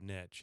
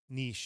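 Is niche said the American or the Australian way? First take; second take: American; Australian. First: Niche is said the American way. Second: Niche is said the Australian way. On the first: The speaker calls it right. "instead of niche" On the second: The speaker calls it wrong. "they say niche"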